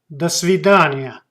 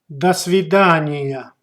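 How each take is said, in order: The two takes are said the same way.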